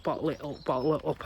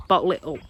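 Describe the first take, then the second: First: Softer repeat, holding it in; quieter, pressing it down. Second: Said in the usual way. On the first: Shown as a demonstration. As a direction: say it quieter each time, bottling it. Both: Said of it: "like an explosion".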